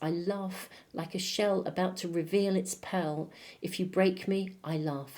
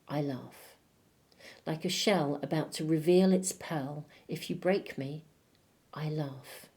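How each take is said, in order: First: The first 'I laugh' runs straight on without pausing. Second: There is a pause after the first 'I laugh'.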